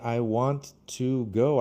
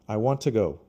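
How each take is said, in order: First: The word "to" is said in full. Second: The word "to" is reduced to "ta". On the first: The speaker calls it wrong. "I don't say I want to go" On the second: The speaker calls it right. "the advanced reduction of two is ta"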